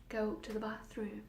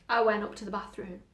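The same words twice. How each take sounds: First: Soft, coaxing voice in the head; hushed inner voice. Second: Said in the usual way. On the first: Acted. Voices in her head order the girl upstairs, hushed. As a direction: speak softly, like a voice inside her.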